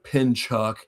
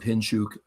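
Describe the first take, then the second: First: The name is read as an American would. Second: The name is said as Russian speakers say it. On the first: This is how the spelling suggests it is said. The speaker calls it wrong. "It looks it looks like Pinchuk, C H U K at the end" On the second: This is how native speakers actually say it. The speaker calls it right. "but it's Vitaly Pinchuk"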